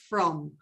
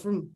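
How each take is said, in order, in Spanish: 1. La vocal en la palabra es plena. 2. La vocal en la palabra es un schwa. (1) "Cuando tú le dices sola es from" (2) "ese from se quedó from"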